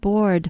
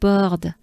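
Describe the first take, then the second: First: It is said with a plain English accent. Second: It is said with a French accent.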